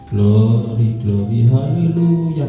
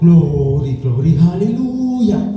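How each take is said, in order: First: It is said flatly, without energy. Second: It is said lively, with energy.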